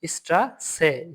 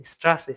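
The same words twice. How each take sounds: First: স্ট্রাসে slowly split into স্ট্রা and সে; slow teaching take of স্ট্রাসে, two separate beats. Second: Said in the usual way. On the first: Shown as a demonstration. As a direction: sound out স্ট্রাসে by syllables, with an s sound for ß. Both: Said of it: "এটা এস এর মতো উচ্চারণ দিবে".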